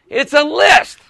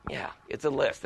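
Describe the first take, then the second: First: Higher, slow, drawn-out announcement; emphatic answer. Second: Low, very soft confirmation; quiet aside. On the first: Speaker defining inventory for the group, emphatic announcement. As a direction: proclaim the definition to the room. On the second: Speaker confirming the definition to himself, quiet low aside. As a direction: drop right down as if musing privately. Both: Shown as a demonstration.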